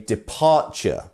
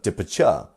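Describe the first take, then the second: First: The stress is on the second syllable. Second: The stress is on the third syllable. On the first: The speaker calls it right. "it's the second syllable that is our stressed syllable. So we say departure" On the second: The speaker calls it wrong. "or departure"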